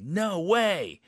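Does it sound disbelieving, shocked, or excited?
excited. It sounds very happy and excited.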